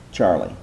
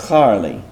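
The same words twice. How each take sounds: First: Said in the usual way. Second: "Charlie" with a throaty h instead of ch, like "Harlie"; Hebrew chet pronunciation. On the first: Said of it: "Didn't work, did it?". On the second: Shown as a demonstration. Teacher testing the Hebrew spelling of "Charlie" aloud: throaty h. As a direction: read "Charlie" as a Hebrew would, starting with a rasping h. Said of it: "it would be pronounced that way".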